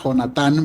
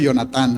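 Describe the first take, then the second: First: The name starts with a harsh, throaty J sound. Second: The name starts with a soft, non-throaty sound. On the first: This is the standard correct way. The speaker calls it right. "lo correcto es pronunciarlo con J" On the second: This is the easier local border way. The speaker calls it wrong. "yo lo pronuncio Jonatán"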